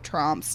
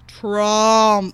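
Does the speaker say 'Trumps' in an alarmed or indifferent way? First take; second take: indifferent; alarmed. First: The word is said casually, without any reaction. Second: The word is said with a loaded, reactive tone. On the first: The name carries no special weight. "if I had done this like 5 years ago, it would be like, oh, Trumps, nothing" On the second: The name now carries strong associations. "And now we're like"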